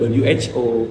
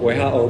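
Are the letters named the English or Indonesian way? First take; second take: English; Indonesian. First: The letters get their English names. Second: The letters get their Indonesian names. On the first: The speaker calls it wrong. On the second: The speaker calls it right. "dibacanya tetap"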